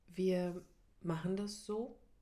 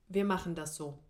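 First: It sounds tentative, as if seeking approval. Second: It sounds firm and settled, not seeking approval.

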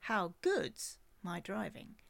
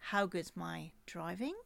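First: The stress falls on the word good's. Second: The stress falls on the word driving.

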